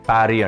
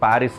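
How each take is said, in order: First: The word ends on a vowel, no s sound. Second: The word ends with an audible s sound. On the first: "వాళ్ళకి ఎస్ పలకరు, ప్యారీ అంటారు" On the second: "ప్యారిస్ అని ఉంది కదా"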